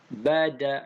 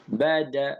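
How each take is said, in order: Both takes have the same delivery.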